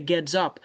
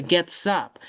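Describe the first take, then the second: First: "gets up" with the s wrongly buzzed as z, ged-zup; wrong voiced linking. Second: "gets up" linked with a hissed s, get-sup; correct s linking. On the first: Teacher showing what not to say, wrong voiced linking. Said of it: "Imagine, on t'a prononcé S". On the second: Teacher giving the right form, s linking. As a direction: join "gets up" as get-sup, keeping the s voiceless. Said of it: "c'est get". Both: Shown as a demonstration.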